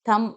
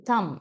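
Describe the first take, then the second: First: The word ends on the 'm' sound. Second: The same.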